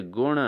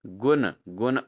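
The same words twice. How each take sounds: First: गुण ending in retroflex n; correct pronunciation. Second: गुण with plain dental n; wrong pronunciation. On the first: Teacher answers for students, गुण with retroflex n. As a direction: curl the tongue to end गुण. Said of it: "क्या होना चाहिए?". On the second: Teacher shows students the error, गुण with plain n. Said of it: "अशुद्ध रूप है". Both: Shown as a demonstration.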